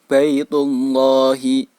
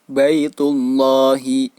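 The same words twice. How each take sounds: Both takes have the same delivery.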